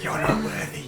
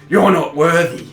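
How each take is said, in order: First: It is said in a whisper. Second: It is said in a normal voice.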